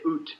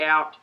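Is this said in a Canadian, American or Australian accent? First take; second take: Canadian; Australian. First: It is said with a Canadian accent. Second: It is said with the speaker's Australian accent.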